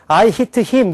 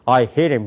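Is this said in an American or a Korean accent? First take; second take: Korean; American. First: It is voiced from the front of the mouth. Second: It is voiced deep from the throat, American-style. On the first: The speaker calls it wrong. "우리는" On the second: The speaker calls it right. "미국 사람들은"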